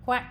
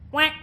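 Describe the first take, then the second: First: The voice has no bright twang. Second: The voice has a bright, piercing twang. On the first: "without and then with twang" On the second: "And with twang"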